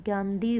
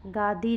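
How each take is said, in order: First: गांधी with an n after the long "aa"; corrected nasal form. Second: गादी as "gaa-dee", no n; wrong form, no nasal. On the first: Teacher giving students the correction, गांधी with nasal. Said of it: "गांधी होगा". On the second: Teacher showing students the error, गादी without nasal. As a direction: leave out any nasal in गादी. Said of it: "गादी नहीं". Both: Shown as a demonstration.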